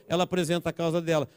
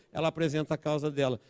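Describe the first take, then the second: No difference in how they are said.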